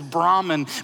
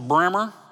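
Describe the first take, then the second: First: The word is said in its standard form. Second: The word is said in a local cowboy form. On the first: It names the supreme being. "But the actual word is Brahman" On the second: It names the breed of cow. "If you're a cowboy, it's a Brahmer"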